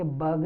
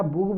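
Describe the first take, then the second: First: बग with an uh sound, not oo; short uh vowel. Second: बुग with the u of put; wrong oo vowel. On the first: Teacher giving the correct sound of bug, uh vowel. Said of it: "ये बग है". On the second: Teacher asking if bug is said this way, oo vowel. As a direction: mispronounce bug as बुग, boog. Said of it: "क्या बुग बोलेंगे?". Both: Shown as a demonstration.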